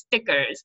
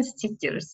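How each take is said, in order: First: "stickers" with a short i, as in "stick"; short vowel. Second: "stickers" with long ee, like "steek-yers"; Uzbek-Russian pronunciation. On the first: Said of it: "because it's a short vowel". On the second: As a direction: stretch the first vowel of "stickers" to ee. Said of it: "Uzbek or Russian". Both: Shown as a demonstration.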